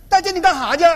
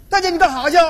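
Both takes have the same delivery.

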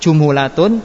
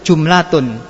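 First: An u vowel follows the second consonant. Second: No vowel follows the second consonant. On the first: "Yang pertama tadi doma" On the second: "Yang ketiga tetap, tetap sukun"

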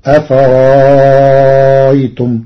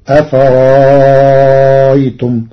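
First: The middle hamza becomes a long, lengthened vowel. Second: The middle hamza becomes a long, lengthened vowel.

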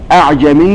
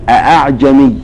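First: The first hamza is dropped, leaving one hamza. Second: Both hamzas are pronounced fully and distinctly. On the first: "أسقطن لتسهل" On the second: "بالتحقيق"

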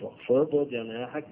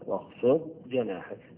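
First: The ض sound is released with a bounce. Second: The ض sound is held still without a bounce. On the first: The speaker calls it wrong. "مش واخفض جناحك، لا" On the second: The speaker calls it right. "هنقرا الضاد وما قلقلش، ما حركش الضاد"

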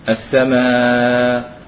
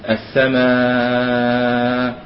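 First: The long vowel is held moderately. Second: The long vowel is held for a long time. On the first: "ويوسط" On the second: "ويطول"

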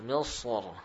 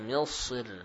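First: The final r is heavy and thick. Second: The final r is light and thin. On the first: "bisa dibaca tebal" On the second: "atau tipis"

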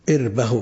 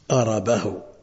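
First: It begins with i and has no vowel after r. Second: It begins with a and has a after r. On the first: "بكسر الهمزة وسكون الراء" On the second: "بفتحتين"

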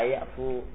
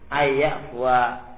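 First: The word ends on -fu with no final syllable. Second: The word ends with a final -wa syllable. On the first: The speaker calls it wrong. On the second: The speaker calls it right.

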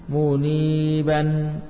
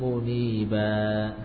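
First: The word ends with an n sound. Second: The word ends on a vowel without n. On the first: The word is read without stopping on it. "tanwin fathah" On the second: The reader stops on this word. "Kalau waqaf, tanwinnya hilang"

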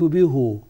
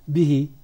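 First: The pronoun is said with a u vowel. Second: The pronoun is said with an i vowel. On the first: This is the Hijazi form. "الحجاز يقولون به" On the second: This is the form used by the other Arabs. "يكسروها للياء"

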